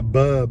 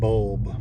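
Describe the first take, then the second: First: The L sound is dropped. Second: The L sound is pronounced. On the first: The speaker calls it wrong. "bub instead of" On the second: The speaker calls it right. "instead of bulb"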